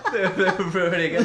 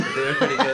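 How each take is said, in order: First: Giggling brag; laughing. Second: Said in the usual way. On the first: Shown as a demonstration. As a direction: call it out through a laugh. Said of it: "repeats the line". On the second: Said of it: "repeated plainer".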